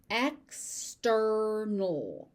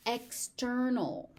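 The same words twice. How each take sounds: First: "External" very slowly as ek, sturr-null; syllable by syllable. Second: Said in the usual way. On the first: Shown as a demonstration. Teacher sounding out "External" for learners, slowly by syllable. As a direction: gap after "ek", stretch the rest of "External".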